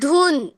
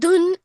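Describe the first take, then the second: First: The u vowel is drawn out long. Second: The u vowel is said short and quick. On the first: The speaker calls it right. "वो बड़ी लंबी खींची जाए बोलते वक्त" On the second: The speaker calls it wrong. "हम धुन ऐसा करते हैं क्या? नहीं"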